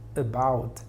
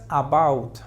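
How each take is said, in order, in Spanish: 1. La primera vocal es una schwa reducida. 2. La primera vocal es una vocal plena. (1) "aquí es una schwa al inicio" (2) "No digas about"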